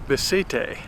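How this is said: The name is said with a Spanish pronunciation. "here in Spain they pronounce it"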